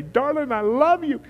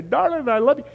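First: High, tender, sing-song love; a husband telling his wife he loves her, sweetly; loving greeting. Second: High, tender, rising love; the wife replying lovingly, high and sweet; wife's reply. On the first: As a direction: coo it to your wife. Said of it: "before I brush my teeth and say". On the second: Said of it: "She'll say". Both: Retold or imitated.

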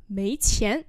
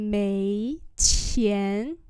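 First: Said in the usual way. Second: Two long rising syllables; slow model for learners; slow demonstration. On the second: Shown as a demonstration. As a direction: stretch out each tone. Teacher repeats phrase slowly.

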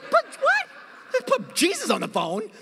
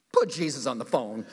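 First: A much higher, baffled echo of her demand; incredulous repeat. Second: A lower, laughing order; demanding girlfriend. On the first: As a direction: repeat it like you can't believe it. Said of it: "You're like". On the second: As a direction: say it like a suspicious girlfriend. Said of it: "She's like". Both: Retold or imitated.

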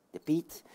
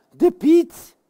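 First: Low, much softer repeat; hushed echo. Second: High, exclaimed reveal; excited announcement. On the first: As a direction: echo it quietly. Zachte echo van uitroep. (zachte, lage herhaling) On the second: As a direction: exclaim it as a big surprise. Kondigt terugkeer van Piet aan. (opgewonden uitroep) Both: Pretend.

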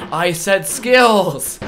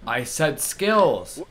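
First: Slow, loud, laughing exasperation on skills; exasperated loud. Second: Slow insistent. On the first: Gamer repeating the command louder, exasperated laughing shout. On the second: Repeating voice command to game. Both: Real, not acted.

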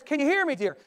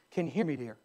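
First: Higher-pitched acted question; insistent test call. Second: Low, quiet acted question; soft test call. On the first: Husband repeating right up close. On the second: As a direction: try it softly in a husband's low voice. Husband testing from the doorway.

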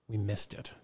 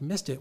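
First: Low, soft mock admission; retold apology. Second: Incredulous echo as a question; retold disbelief. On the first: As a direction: own up quietly, imitating the culprit. Title company admits error, retold. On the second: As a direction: throw it back, not believing it. Caller throws admission back incredulously.

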